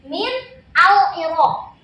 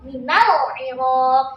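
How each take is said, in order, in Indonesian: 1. Kata-katanya diucapkan terpisah, 'al'-nya tetap dibaca. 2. Kata-katanya disambung, huruf 'a' pada 'al' dihilangkan. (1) "aslinya tulisannya kayak gini" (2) "ketika kita menyambungkan menjadi satu"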